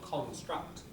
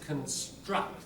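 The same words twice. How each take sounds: First: The first syllable is said strong and full. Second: The first syllable is weak and unstressed. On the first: The speaker calls it wrong. "not construct" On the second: The speaker calls it right. "Syllable before the stress is weak"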